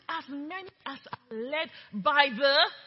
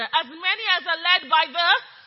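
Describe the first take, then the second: First: It is said at normal volume. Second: It is said loudly.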